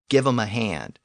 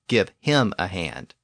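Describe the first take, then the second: First: The h of him is dropped, giving 'em. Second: The h of him is clearly pronounced. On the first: "We still say things like" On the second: "instead of"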